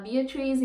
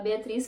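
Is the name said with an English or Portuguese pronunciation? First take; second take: English; Portuguese. First: The name is said with an English pronunciation. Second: The name is said with a Portuguese pronunciation. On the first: It fits more naturally into an English sentence. "se alguém estiver falando inglês e falar Beatrice" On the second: It is the name's original pronunciation. "em vez de falar Beatriz"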